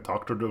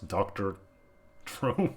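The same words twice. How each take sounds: First: The stress falls on the word doctor. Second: The stress falls on the word drone. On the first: It is a drone that works as a doctor. The speaker calls it right. "It's like a Doctor Drone" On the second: It is a doctor whose name is Drone. The speaker calls it wrong. "not Doctor Drone"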